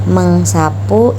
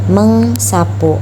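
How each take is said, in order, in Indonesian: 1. Di tengah ada bunyi 'ng' yang diikuti 's'. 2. Di tengah ada bunyi 'ng' yang diikuti 's'.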